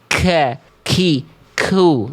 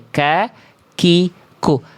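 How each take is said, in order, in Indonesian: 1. K punya hembusan napas yang kuat dan berlebihan. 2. K hanya punya hembusan napas yang ringan. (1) "Jadi dibacanya gini ka ki ku. Enggak" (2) "biasa aja"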